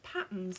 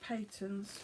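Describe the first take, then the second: First: The first vowel sounds like 'pat'. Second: The first vowel sounds like 'pay'. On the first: Some other people say it this way. "I've heard some people pronounce this as Patterns" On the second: The speaker believed it was said this way. "but I thought it was Peyton's"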